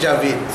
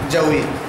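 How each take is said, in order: First: The middle consonant is a v sound. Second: The middle consonant is a w sound. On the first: This is the everyday local form. "যেমন আমরা বলি জাভিদ" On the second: This is the original Arabic or Urdu form. "আসলে জাউইদ শব্দটা আরবিতে অথবা উর্দুতে হলো জাউইদ"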